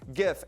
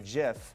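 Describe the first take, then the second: First: The word begins with a hard G sound. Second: The word begins with a soft G sound. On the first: "hard G pronunciation" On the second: "he wanted a soft G"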